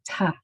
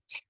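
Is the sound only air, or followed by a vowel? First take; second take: vowel; only air. First: A vowel sound follows the consonant. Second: Only the consonant with air, no vowel. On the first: The speaker calls it wrong. "Did you hear all of those uhs at the end?" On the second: The speaker calls it right. "did you notice that there was only air that came out?"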